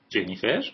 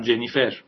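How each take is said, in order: First: Surprised question. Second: Said in the usual way. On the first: A narrator's reading. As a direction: echo the name back in disbelief. David surprised hearing her name.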